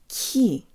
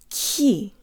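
The two takes are said the same way.

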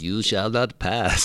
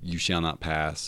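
First: It is said in an Obi-Wan impression. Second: It is said in the speaker's plain voice.

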